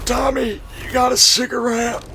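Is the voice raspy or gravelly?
raspy. The voice sounds raspy, like a longtime smoker. The speaker calls it right. "I can only do the rasp. Like I could do that"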